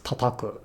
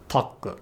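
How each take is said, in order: First: Said in the usual way. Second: Taku, tataku with one ta missing; wrongly dropped syllable. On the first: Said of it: "which is never pronounced as taku". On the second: Shown as a demonstration. Teacher showing a form never used, taku with a syllable dropped. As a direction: drop a ta from tataku so only taku is left. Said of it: "which is never pronounced as".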